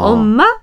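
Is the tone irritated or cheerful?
cheerful. It is called in a cheerful tone.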